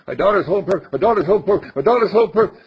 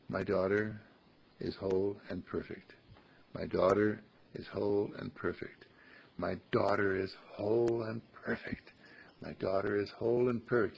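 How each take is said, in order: First: Much higher, louder, hurried repeats; too fast. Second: Soft, steady, sincere repetition; soft heartfelt affirmation. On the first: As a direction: blurt it quickly without thinking. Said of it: "You say it too fast". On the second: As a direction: say it gently and mean it. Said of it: "say it with your heart". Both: Shown as a demonstration.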